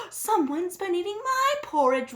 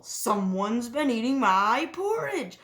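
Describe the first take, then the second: First: Higher, louder mama-bear wail. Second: A hint of a papa-bear roar; a touch of a growl, louder. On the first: Mama Bear finds porridge eaten, higher wail. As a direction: wail it as the upset mother. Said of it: "wailed Mama Bear". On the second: Papa Bear finds porridge eaten, mild roar. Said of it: "roared Papa Bear". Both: A narrator's reading.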